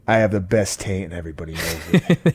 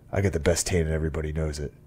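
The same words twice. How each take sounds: First: Laughing catchphrase. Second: Pissed-off wrestler. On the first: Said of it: "I want that to be my catchphrase". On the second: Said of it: "He's just like". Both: Retold or imitated.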